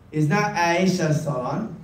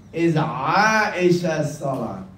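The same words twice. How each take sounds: First: Aisha with an English ai; wrong way. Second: Aisha Salon slow, Aisha with an open ae; right way. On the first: Teacher showing the wrong reading of the salon's name. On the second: Teacher giving the right reading of the salon's name. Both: Shown as a demonstration.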